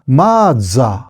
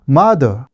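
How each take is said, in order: First: It is said with a Japanese accent. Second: It is said with an English-like accent.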